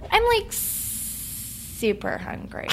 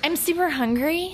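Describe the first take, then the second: First: Slow, drawn-out vocal fry; gravelly Valley Girl. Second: Put-on high Valley Girl lilt, rising on "hungry"; upspeak. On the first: Guest showing the downward Valley Girl version, gravelly fry. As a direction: drag it out into a gravelly creak. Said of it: "it could go down and it turns into a kind of gravelly". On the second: Guest showing Valley Girl speech, rising on "hungry". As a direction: turn "hungry" up like a question. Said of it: "It could either do that or". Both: Shown as a demonstration.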